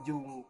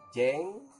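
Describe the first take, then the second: First: The vowel sounds like a clear u. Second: The vowel sounds like a clear e. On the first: "bukan jung" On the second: "bukan jeng"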